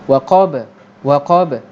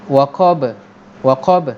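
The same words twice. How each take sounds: No difference in how they are said.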